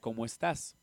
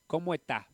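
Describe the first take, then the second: First: Ecuadorian accent, with the final s pronounced. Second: Chilean accent, with the final s dropped.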